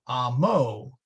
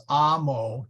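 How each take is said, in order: First: "amo" wrongly stressed ah-MO, drawn out; last-syllable stress. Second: "amo" stressed AH-mo; first-syllable stress. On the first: Teacher showing the wrong accent, last-syllable stress. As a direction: slowly push the accent onto the end of "amo". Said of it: "not amo". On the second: Teacher showing the two-syllable rule, first-syllable stress. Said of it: "the accent always falls on the first syllable". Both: Shown as a demonstration.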